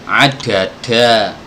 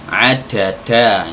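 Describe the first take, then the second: First: The d sounds are heavy, with a Javanese accent. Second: The same.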